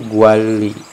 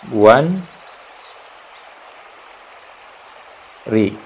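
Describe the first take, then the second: First: The middle consonant is an l sound. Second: The middle consonant is an n sound.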